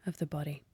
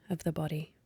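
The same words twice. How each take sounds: The two takes are said the same way.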